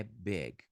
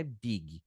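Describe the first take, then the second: First: "big" in one syllable, short lax i; correct English pronunciation. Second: "big" with a tense ee and extra final ee; two-syllable Portuguese-style "big"; wrong Brazilian pronunciation. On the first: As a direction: stop "big" on the g. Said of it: "é big". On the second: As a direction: say "big" as BEE-ghee. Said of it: "não é big". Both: Shown as a demonstration.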